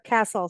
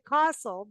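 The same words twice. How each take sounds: First: It is said in an American accent. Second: It is said in a South African accent. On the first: "now here castle" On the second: "I always said castle, being in South Africa and Kenya"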